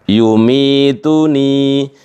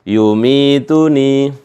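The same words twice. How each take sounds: The two takes are said the same way.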